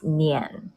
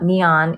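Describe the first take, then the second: First: It sounds like one syllable, nyen. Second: It sounds like the English word neon. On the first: The speaker calls it right. "it's Nian" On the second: The speaker calls it wrong. "it's not neon"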